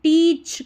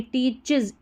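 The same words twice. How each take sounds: First: "टीच" as one syllable, teech; wrong pronunciation. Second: "टीचेस" with an iz ending, tee-chiz; correct pronunciation. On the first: Teacher shows the mistake, "टीच" without final syllable. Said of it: "टीच करके पढ़ दिया". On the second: Teacher corrects learners, "टीचेस" ending in iz. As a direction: sound the second syllable of "टीचेस". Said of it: "इज करके पढ़ा गया". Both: Shown as a demonstration.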